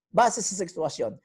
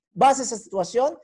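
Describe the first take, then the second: First: "Base sa sitwasyon." answered with a settled falling tune; answering tune. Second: "Base sa sitwasyon?" asked with a rising question tune; asking tune. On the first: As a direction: drop the end of "Base sa sitwasyon." as the firm answer. ("Base sa sitwasyon." na pasagot, pababa ang tono sa dulo) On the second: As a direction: lift the end of "Base sa sitwasyon?" like a question to the class. ("Base sa sitwasyon?" na patanong, pataas ang tono sa dulo) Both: Shown as a demonstration.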